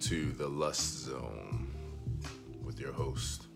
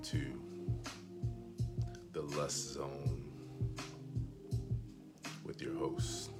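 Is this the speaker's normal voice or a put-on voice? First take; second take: normal; put-on. First: It is spoken in a normal everyday voice. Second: It is spoken in an exaggerated put-on voice. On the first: It is sincere. "No, I'm just kidding" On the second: It is a joke. "I'm going to do this entire live stream in this voice right here"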